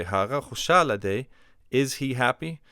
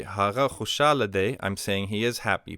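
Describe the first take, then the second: First: "Hara khushala de" rising into a question; question intonation. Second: "Hara khushala de" as a plain statement of fact; statement intonation. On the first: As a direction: ask "Hara khushala de" with lifted questioning pitch. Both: Shown as a demonstration. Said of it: "change the intonation of our voice".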